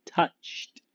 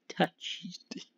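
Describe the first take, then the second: First: Laughing repeat. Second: Breathy whisper of touched, much softer; a whispered punchline; whispered aside. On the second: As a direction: drop it to a secret whisper. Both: Real, not acted. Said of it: "John Matuzak was touched in the head".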